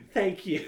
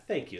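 First: Higher, hammed-up gratitude; mock praised artist. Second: Modest, offhand acceptance; as the praised artist. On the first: Host re-enacting himself as the female artist, mock gratitude. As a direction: play up being the flattered star. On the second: Acted. Host accepting praise meant for the female artist, offhand gratitude. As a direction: take the compliment as if it were yours. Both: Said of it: "I said that like I'm the female artist".

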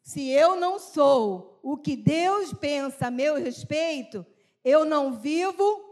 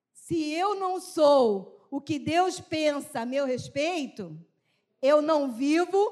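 First: Slow repeated reading. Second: Slow reading aloud. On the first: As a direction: say it again slowly with the group. (repetição lenta e firme) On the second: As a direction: read the phrase slowly, stressing eu. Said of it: "agora eu queria que você lesse essa frase comigo". (leitura lenta e enfática) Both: Shown as a demonstration.

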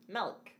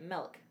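First: MILK slipping toward "melk", said softly; careful MILK with an E-like vowel; effortful soft "melk"; focused milk. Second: Neat, soft "milk" with no A; careful correct milk. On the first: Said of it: "not leaning to that A". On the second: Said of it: "I can say it right". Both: Shown as a demonstration.

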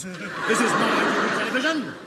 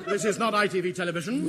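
First: Stern. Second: Quicker, laughing repeat; faster repeat. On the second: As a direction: rattle it off again, laughing. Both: Acted. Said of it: "repeated line".

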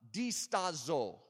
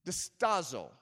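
First: Slow Italian-style "Distazo"; Italian-sounding accent. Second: Said in the usual way. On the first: Shown as a demonstration. Preacher reads a Greek word to congregation, Italian-sounding accent. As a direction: draw "Distazo" out slowly as if Italian. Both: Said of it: "Now that sounds like Italian".

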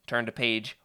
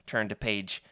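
Both takes have the same delivery.

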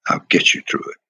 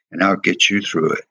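First: The promise repeated in a near whisper. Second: Said in the usual way. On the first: Retold or imitated. Willie Davis reassuring young Bill, whispered again. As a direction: breathe it again under the voice, no tone.

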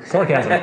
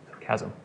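First: "Sarcasm" with SAR punched, then falling; stress on first syllable. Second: "Sarcasm" stressed on its second syllable; soft "Sarcasm" with CASM as the stressed part; stress on wrong syllable. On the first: Teacher correcting a misplaced emphasis, first-syllable stress on "Sarcasm". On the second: Teacher catching a slip to the class, misplaced stress on second syllable of "Sarcasm". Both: Shown as a demonstration. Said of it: "Emphasis on the wrong syllable".

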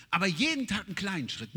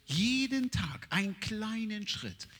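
First: Said in the usual way. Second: Slow stress on Jeden; slow emphasis. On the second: Shown as a demonstration. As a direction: spell out Jeden Tag slowly. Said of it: "slow emphatic rule".

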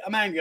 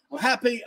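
First: Mild mock-angry drop in tone; a quick flip back down to angry; angry, mimicked. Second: Lightly lifted mock-happy voice; a quick flip up to happy; happy, mimicked. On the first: Host mimics her sudden mood switches, mock angry. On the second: Host mimics her sudden mood switches, mock happy. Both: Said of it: "like a light switch".

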